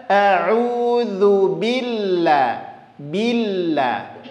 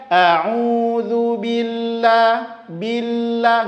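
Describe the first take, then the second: First: Billah with the ll held and pressed; pressed double l. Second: Billah with a single light l; wrong, no stress. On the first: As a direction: lean lightly on the ll of billah. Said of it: "tapi tekan sedikit". (billah dengan lam ditekan) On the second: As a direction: slide past the ll in billah. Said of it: "Nggak nampak penekanannya". (billah tanpa penekanan lam) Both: Shown as a demonstration.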